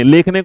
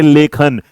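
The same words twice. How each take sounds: First: लेखने as "lekh-ne", extra vowel sign sounded; misspelt word read out. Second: लेखन as "le-khan", no final vowel; corrected word. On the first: Teacher showing a spelling error, लेखने ending in "ne". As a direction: say लेखने with final "ne". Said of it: "कोई word तो नहीं होता". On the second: Teacher correcting the spelling, लेखन ending in "khan". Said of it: "लेकिन अगर इसे बेटा". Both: Shown as a demonstration.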